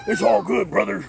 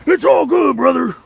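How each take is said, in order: First: Lightly voiced wrestler impression, higher pitch; a restrained first go at a wrestler's catchphrase; Hulk Hogan. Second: Loud, high-pitched wrestler impression; Hulk Hogan. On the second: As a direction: belt out the wrestler's catchphrase at full force. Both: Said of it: "I'm gonna call you Hulk Hogan".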